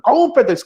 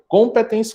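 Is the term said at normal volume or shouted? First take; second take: shouted; normal. First: It is shouted loudly. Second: It is said at a normal volume.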